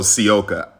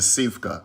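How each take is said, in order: First: The surname is said without a V sound. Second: The surname is said with a V sound. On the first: The speaker calls it right. "So the V, you don't pronounce" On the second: The speaker calls it wrong. "I was saying it wrong. I was saying Sivka"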